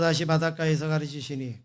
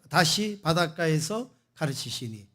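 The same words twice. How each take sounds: First: It is read flatly, like a machine voice. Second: It is read with varied stress and intonation. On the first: The meaning is unclear to listeners. The speaker calls it wrong. "그 에이아이가 요즘 뭐 하는 것처럼" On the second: The meaning comes across clearly. The speaker calls it right. "다르잖아요"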